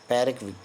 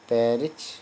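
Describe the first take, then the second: First: The word ends with a k sound. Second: The word ends with a ch sound. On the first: "रिक भी बोल सकते हैं" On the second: "रिच भी बोल सकते हैं"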